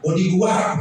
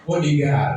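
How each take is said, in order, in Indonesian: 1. Dibaca huruf demi huruf sesuai ejaannya. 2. Diucapkan dengan pengucapan Inggris.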